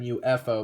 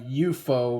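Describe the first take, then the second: First: It is said with an English pronunciation. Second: It is said with a Japanese pronunciation. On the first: "rather than" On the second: "that's how the Japanese pronounce it"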